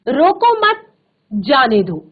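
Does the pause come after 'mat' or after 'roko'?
after mat. There is a pause right after 'mat'. Do not stop them; let them go.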